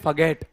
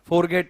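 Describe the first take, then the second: First: No r sound is pronounced in the first syllable. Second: An r sound is pronounced in the first syllable. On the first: The speaker calls it right. "इसको कहते हैं फगेट। बोलो फगेट, रे मत बोलो इसमें" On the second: The speaker calls it wrong. "आप गलत करते हो उच्चारण, फॉरगेट नहीं कहते इसको"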